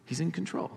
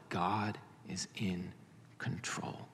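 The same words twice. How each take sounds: First: "in" lifted higher with a rising close; lifted affirmation. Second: Hushed whisper. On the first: Preacher restates aloud. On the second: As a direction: whisper it, much softer, slowly. Preacher's hushed emphasis. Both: Shown as a demonstration.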